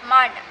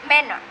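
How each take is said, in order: Both takes have the same delivery.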